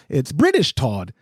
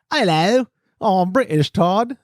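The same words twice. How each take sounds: First: Said in the usual way. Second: A light, hammed-up British accent; playful bad British accent. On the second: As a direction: put on a bad posh British accent to introduce Todd. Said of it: "really bad accent".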